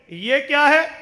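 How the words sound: It sounds like a genuine, curious question.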